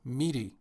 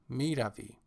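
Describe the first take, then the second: First: The verb is said in a shortened form. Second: The verb is said in its full form. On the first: It is casual everyday speech. "conversational or informal style" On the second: It is formal speech.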